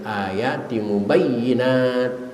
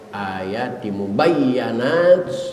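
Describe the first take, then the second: First: The vowel after the doubled y is 'i'. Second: The vowel after the doubled y is 'a'. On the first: "boleh dibaca kasrah" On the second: "dengan dibaca patah ya"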